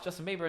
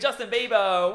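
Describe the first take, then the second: First: It is said in a calm, ordinary speaking voice. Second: It is said in a loud, hyped announcer voice. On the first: It is just talking normally to someone. The speaker calls it right. "I'm just saying it to you like a normal person" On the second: It mimics an over-the-top radio host. The speaker calls it wrong. "imagine commercial radio"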